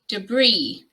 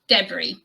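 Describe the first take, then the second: First: The stress is on the second syllable. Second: The stress is on the first syllable. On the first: This is the American pronunciation. "with the stress on the second syllable" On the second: This is the British pronunciation. "I personally say debris"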